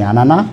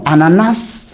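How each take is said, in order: First: The final s is silent. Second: The final s is clearly sounded. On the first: It sounds like the word for mother. The speaker calls it wrong. "en français on dit ananas" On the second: It clearly names the fruit. The speaker calls it right. "les gens comprendront maintenant qu'il s'agit de l'ananas"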